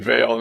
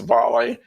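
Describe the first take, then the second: First: It is said as one syllable rhyming with 'sail'. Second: It is said as two syllables, like 'volley'. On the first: The speaker calls it wrong. "you said Vale" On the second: The speaker calls it right. "it's volley"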